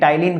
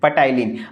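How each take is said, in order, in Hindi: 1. शब्द की शुरुआत में T की ध्वनि होती है, P साइलेंट है। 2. शब्द की शुरुआत में P की ध्वनि उच्चारित होती है। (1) "टाइलिन कहते हैं, पी साइलेंट होता है" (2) "इसको पटाइलिन नहीं"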